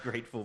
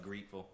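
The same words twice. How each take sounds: First: Said in the usual way. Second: Grateful said as GREET-ful; misspelled pronunciation. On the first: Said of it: "that's a stupid way to spell great". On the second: Shown as a demonstration. Judge reading back the wrong spelling, grateful as GREET-ful. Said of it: "You spelled grateful".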